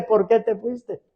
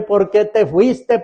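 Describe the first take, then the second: First: Softer, slow, sinking echo of the cry; imitating a grieving relative, trailing off; fading mock wail. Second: Slow, pleading cry of a mourner; imitating a grieving relative's cry; mock wail. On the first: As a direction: let the plea die away quietly. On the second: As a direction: wail it to the coffin, slowly. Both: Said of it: "Llore y llore".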